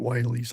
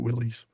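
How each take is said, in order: First: The first syllable sounds like 'while'. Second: The first syllable sounds like 'will'. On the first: "Or is it Wiley's?" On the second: "I call it Willys"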